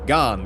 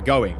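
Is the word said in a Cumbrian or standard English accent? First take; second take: Cumbrian; standard English. First: It is said in a Cumbrian accent. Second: It is said in a standard English accent.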